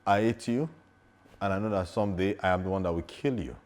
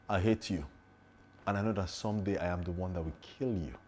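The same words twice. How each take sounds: First: Said in the usual way. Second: Quiet, menacing vow with falling endings; intense threat. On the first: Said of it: "do another thing for you". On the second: Shown as a demonstration. Actor demonstrates the strongest take of a threatening line, quiet and intense. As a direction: say it softly, with controlled menace. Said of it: "which of them do you think is the strongest".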